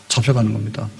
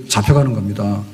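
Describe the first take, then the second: Both takes have the same delivery.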